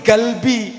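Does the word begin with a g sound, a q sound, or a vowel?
g sound. The word begins with a hard g sound. This is how Egyptians say it. "nek Mesir ora ana qaf, qaf itu dadi g"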